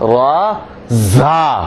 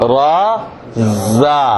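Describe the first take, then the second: First: The z consonant is said hard and forceful. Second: The z consonant is said soft and light. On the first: The speaker calls it wrong. "খুব কঠিন করে বলা হয়" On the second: The speaker calls it right. "নরম করে বলতে হবে"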